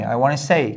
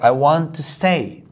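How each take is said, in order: First: "Want to" is reduced to "wanna". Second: "Want to" is said as two full words.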